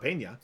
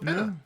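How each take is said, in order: First: The middle consonant is an ny sound. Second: The middle consonant is a plain n. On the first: The speaker calls it wrong. "was there a tilde? ... So it's not Pena" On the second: The speaker calls it right. "So Penna"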